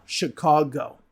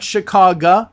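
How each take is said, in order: First: Said in the usual way. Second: Chicago with a weak ah ending and a rising tune; Chicago mispronounced as shuh-KAH-guh; wrong Chicago. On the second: Shown as a demonstration. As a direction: say Chicago ending in a clipped uh sound. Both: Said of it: "Not Chicago".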